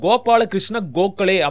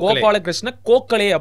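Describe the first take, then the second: First: The first sound is a voiced g. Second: The first sound is a voiceless k. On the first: This is the original Sanskrit pronunciation. "கோ அந்த வர்க்க எழுத்து வந்து தமிழில் இல்லை" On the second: This is how Tamil speakers say it. "அப்படிங்கிறாங்க"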